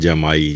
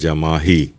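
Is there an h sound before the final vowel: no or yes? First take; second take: no; yes. First: There is no h sound before the final vowel. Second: There is an h sound before the final vowel. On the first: The speaker calls it wrong. "बोलते भी हैं जमाई ... जबकि ये गलत है" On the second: The speaker calls it right. "असल लफ्ज़ है जमाही"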